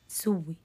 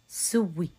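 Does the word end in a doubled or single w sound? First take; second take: doubled; doubled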